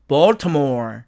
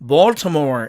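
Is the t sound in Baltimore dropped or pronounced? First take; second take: pronounced; pronounced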